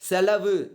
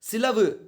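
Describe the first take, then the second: First: The first vowel sounds like 'e'. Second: The first vowel sounds like 'i'. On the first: This is the written, formal form. "எழுத்து வழக்கு" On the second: This is the spoken, colloquial form. "பேச்சு வழக்கு"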